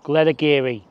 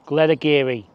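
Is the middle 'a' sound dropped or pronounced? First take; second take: pronounced; pronounced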